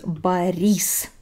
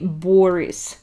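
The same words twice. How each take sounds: First: The name is said the Russian way. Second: The name is said the English way. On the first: The speaker calls it right. "But actually, the name is Boris" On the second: The speaker calls it wrong. "In English, for some reason, a lot of people say Boris"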